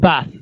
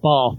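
First: The word is said in a plain accent. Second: The word is said in a posh accent.

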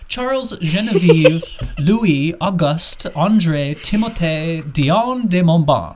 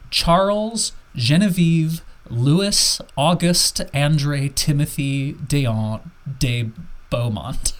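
First: The name is said with a French accent. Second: The name is said with an English accent.

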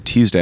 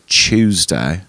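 First: The word begins with a clear t sound. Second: The word begins with a ch sound. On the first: "I just pronounce all the letters that are in the word" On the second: "I don't say Tuesday"

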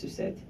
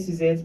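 First: The name is said with a French pronunciation. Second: The name is said with an English pronunciation. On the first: "if you pronounce it in French, it's Sucette" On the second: "everybody will say Suzette"

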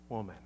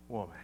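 First: The word is said softly and warmly. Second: The word is said softly and warmly.

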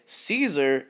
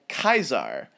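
First: It begins with an S sound, like 'seezer'. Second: It begins with a K sound, like 'kaiser'. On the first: "the modern English way of saying Caesar" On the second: "Caesar in proper Latin sounds more like Kaiser"

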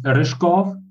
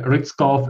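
First: The surname is pronounced with its native sounds. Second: The surname is pronounced with anglicized sounds. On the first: "in original language" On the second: "some people just call me"

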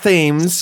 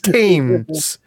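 First: The word begins with a th sound. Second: The word begins with a plain t sound. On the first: The speaker calls it wrong. "It's not Thames" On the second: The speaker calls it right. "It's Thames. Why is there an H there? It's not really an H there"

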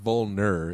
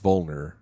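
First: The E vowel is clearly pronounced. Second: The E vowel is nearly dropped. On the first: The speaker calls it wrong. "it's not like vulner" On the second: The speaker calls it right. "The E is like not really there"

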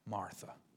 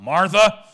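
First: The name is said softly and gently. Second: The name is said sharply and sternly. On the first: She is being kindly urged to see things rightly. The speaker calls it right. "I think it's more like Martha" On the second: The person is in trouble. The speaker calls it wrong. "the tone is not Martha"

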